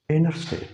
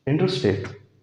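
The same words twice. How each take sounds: First: "इंटरस्टेट" as "innerstate"; American "इंटरस्टेट", N with no T after it; American silent T. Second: Said in the usual way. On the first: Shown as a demonstration. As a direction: drop the first T in "इंटरस्टेट". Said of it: "टी की आवाज़ नहीं है". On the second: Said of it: "हम इसको क्या कहते हैं".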